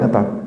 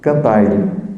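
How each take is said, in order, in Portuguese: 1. O r final é apagado por completo. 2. Acrescenta-se uma vogal extra depois do r final. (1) "No português brasileiro, a gente elimina a consoante final" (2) "em muitos dialetos de Portugal, se acrescenta uma vogal"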